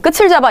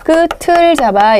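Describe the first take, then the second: First: The final consonant is carried over with a changed sound. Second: The final consonant is carried over with its own sound. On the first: The speaker calls it wrong. "이러시면 안 돼요" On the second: The speaker calls it right. "연음을 하셔야 돼요"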